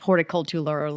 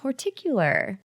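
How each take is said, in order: First: The word is said with five syllables. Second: The word is said with four syllables. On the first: "for the longest time in my head, I have been pronouncing this horticultular" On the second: "That's how I say it"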